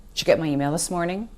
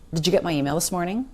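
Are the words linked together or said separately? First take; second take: linked; linked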